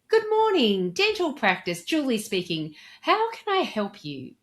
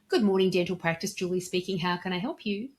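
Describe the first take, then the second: First: It is said with high energy and enthusiasm. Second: It is said with ordinary, moderate energy. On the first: "I'm just increasing my energy and enthusiasm" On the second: "it's very satisfactory"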